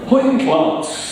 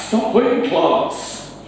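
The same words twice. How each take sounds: First: Hoyt class said high and drawn out in Geordie; Geordie phrase. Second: Hoyt class said high, slow and breathy in Geordie; a PE teacher calling Hoyt class to the lads in Geordie; Geordie teacher's call. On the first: Shown as a demonstration. Quiz host saying a Geordie phrase in Geordie. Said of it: "Geordie quiz". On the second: Retold or imitated. PE teacher telling the lads off, in Geordie. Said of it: "Our P E teacher says".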